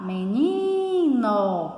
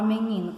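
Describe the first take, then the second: First: Drawn-out "meniiino", as if calling him; calling-out stress. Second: Said in the usual way. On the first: Shown as a demonstration. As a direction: hail "menino", stretching and lifting the "ni". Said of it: "quando eu vou chamar". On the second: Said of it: "quando eu vou chamar menino".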